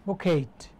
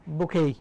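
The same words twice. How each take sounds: First: বুকেট with the final t sounded; spelling pronunciation. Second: বুকেই with silent t; UK pronunciation. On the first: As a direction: close বুকেট on an audible t. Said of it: "ফুলের তোড়ার ইংরেজি হচ্ছে বুকেট". (বুকেট, শেষে ট স্পষ্ট) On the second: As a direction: end বুকেই on an open "ay". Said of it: "UK এর উচ্চারণ হচ্ছে". (বুকেই, UK উচ্চারণে, ট ছাড়া) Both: Shown as a demonstration.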